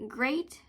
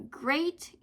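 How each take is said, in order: Both takes have the same delivery.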